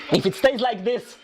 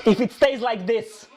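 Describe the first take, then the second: No difference in how they are said.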